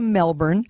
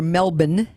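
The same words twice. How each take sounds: First: It is said with an American pronunciation. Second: It is said with an Australian pronunciation.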